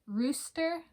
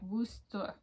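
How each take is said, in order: First: The word begins with an R sound. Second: The word begins with a W sound. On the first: This is the standard form of the word. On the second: This is how the speaker said it as a child.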